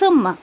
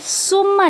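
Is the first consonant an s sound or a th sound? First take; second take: th sound; s sound. First: The word begins with a soft th sound. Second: The word begins with a hissing s sound. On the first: The speaker calls it right. "ज़बान की नोक को थोड़ा सा बाहर निकाल के आपको सा अदा करना है" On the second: The speaker calls it wrong. "ये सुम्मा नहीं है, उस ऐसी आवाज़ नहीं आनी चाहिए"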